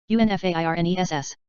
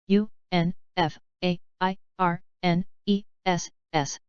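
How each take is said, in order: First: Quick letter run; brisk recap spelling; fast spelling. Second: Slow, letter by letter; unhurried classroom spelling. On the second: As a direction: spell each letter out slowly. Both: Shown as a demonstration. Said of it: "spelling drill, slow then fast".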